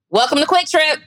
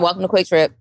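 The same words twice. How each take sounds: First: It is shouted loudly. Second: It is said quietly, without a shout.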